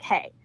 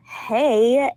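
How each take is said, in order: First: Short, cold imitation of a curt ex; mean. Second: Drawn-out hey, fuller than the curt one; tentative greeting. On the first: Mean ex answering her phone call, curt and dismissive. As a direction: toss it out curtly, mocking his meanness. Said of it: "he was so mean. He was like". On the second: Retold or imitated. Caller greeting the ex who ghosted her, drawn-out and tentative. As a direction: reenact a hopeful, lengthened greeting. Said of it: "And I was like".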